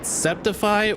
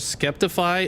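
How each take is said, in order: First: The name is said without a k sound. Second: The name is said with a k sound. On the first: "is it Septify or Skeptify?" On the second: "is it Septify or Skeptify?"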